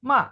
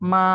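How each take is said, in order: First: It is said with the fourth tone. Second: It is said with the first tone, flat. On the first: "fourth tone" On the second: "মা is a flat"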